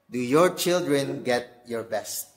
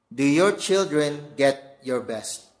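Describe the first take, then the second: First: "your" leaned on again, slow; stress on your. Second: "your" leaned on, slow and weighty; stress on your. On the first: Preacher repeating the question to dads, "your" stressed. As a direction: hit "your" in "Do your children get your best?" a second time. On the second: Preacher asking dads, weight on "your". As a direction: press the word "your" in "Do your children get your best?". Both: Shown as a demonstration.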